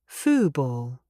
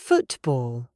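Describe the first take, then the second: First: The T is replaced by a catch in the throat. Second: The T is clearly pronounced with the tongue. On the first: It is how most people casually say it. "Notice the T is gone. I cut the sound in my throat" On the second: It sounds very formal. "If I pronounce the true T, it is football. That is very formal"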